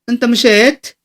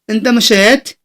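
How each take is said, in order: Both takes have the same delivery.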